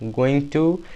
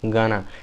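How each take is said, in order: First: It is said as two full words. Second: It is squeezed into one short contracted word. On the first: "then it will be called going to" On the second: "if you wanna make more starter to this, then you can say gonna"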